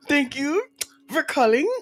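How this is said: It is spoken with a French accent. "French one"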